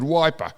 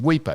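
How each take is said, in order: First: The first vowel sounds like 'eye'. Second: The first vowel sounds like 'ee'. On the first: The speaker calls it wrong. "He said Wiper" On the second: The speaker calls it right. "pronounce the uh, uh, country town properly? Weeper"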